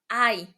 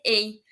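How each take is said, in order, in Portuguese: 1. Soa como 'eye'. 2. Soa como 'ay'. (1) "A gente fala ai" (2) "não vai ser EI"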